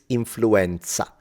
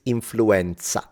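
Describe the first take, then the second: First: The word is pronounced with Italian sounds. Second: The same.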